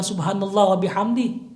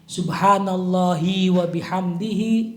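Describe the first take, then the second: First: The final vowels of the words are cut off. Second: The final vowels of the words are fully pronounced. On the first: The speaker calls it wrong. "mensyaratkan bacanya jangan" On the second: The speaker calls it right. "jangan boleh dipotong"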